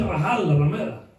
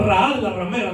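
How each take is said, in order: First: "Rahal" with a clear Spanish j sound, "Rajal"; correct pronunciation. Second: "Rahal" said with no h sound, like "Raal"; common mispronunciation. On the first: Preacher correcting the church's "Rahal", careful pronunciation. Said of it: "no es". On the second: Preacher showing how the church wrongly says "Rahal", lazy pronunciation. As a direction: say "Rahal" the usual careless way, dropping the h. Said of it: "nosotros decimos". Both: Shown as a demonstration.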